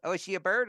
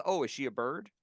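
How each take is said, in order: First: Higher, louder full-on Big Bird impression. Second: Light, slightly raised Big Bird impression; a hint of Big Bird, sweetly asking. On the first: Carol asking if wife Robin is a bird, full Big Bird voice. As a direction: go all in on Big Bird, curious and sweet. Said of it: "In, in full Big Bird voice". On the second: Retelling Carol's question about Robin, light Big Bird voice. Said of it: "went into the Big Bird voice".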